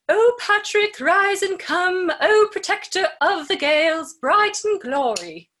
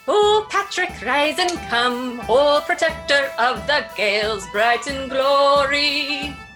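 First: It is spoken in a British accent. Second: It is spoken in an Irish accent.

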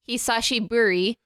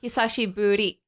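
First: The r is a full American English r. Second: The r is a light tap, almost a d. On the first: The speaker calls it wrong. "you don't say like hisashiburi, because that's like a very like American way of saying it" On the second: The speaker calls it right. "you roll it just like a little baby bit"

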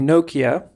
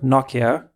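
First: Nokia is said the American way. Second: Nokia is said the way most countries say it. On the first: The speaker calls it right. "say Nokia" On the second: The speaker calls it wrong. "not Nokia, like the rest of the world calls it"

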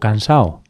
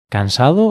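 First: The d between the final vowels is dropped. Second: The d between the final vowels is pronounced. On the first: This is casual, informal speech. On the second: This is the standard, careful form.

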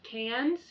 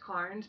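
First: The R sound is dropped. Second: The R sound is clearly pronounced. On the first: This is how locals actually say it. The speaker calls it right. "but it's Cairns. You drop the R" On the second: This is how outsiders would expect it to sound. The speaker calls it wrong. "which you guys would think it was Cairns"

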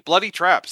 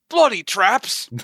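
First: It is said in a natural voice. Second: It is said in a put-on accent.

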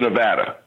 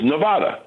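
First: Nevada is said with an Americanized English pronunciation. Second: Nevada is said with a Mexican Spanish pronunciation. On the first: "We Americanized it to Nevada" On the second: "The way it's supposed to be, I guess it's Mexican"

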